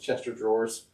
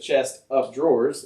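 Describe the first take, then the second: First: It sounds like 'Chester' followed by 'drawers'. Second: A separate word 'of' is heard after 'chest'. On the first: The speaker calls it wrong. "I thought it was Chester drawers" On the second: The speaker calls it right. "It's a chest of drawers"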